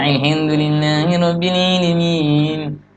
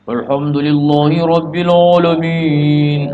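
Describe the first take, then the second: First: Every vowel is spread toward i. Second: Every vowel is rounded toward u or o. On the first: "jangan I semua" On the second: "Jangan vokal O semua"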